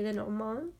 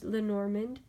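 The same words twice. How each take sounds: First: The name is said with a French accent. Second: The name is said with an American accent. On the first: "You're supposed to say it in a French accent" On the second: "the Americanized version"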